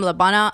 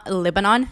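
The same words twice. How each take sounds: First: Said in the usual way. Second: "Lebanon" said as LI-ba-NON with a short i and a full last vowel; Lebanon the Arabic way. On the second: Shown as a demonstration. Correcting her own English "Lebanon" to the native one. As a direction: say "Lebanon" the way a Lebanese cousin says it. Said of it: "and she's from Lebanon".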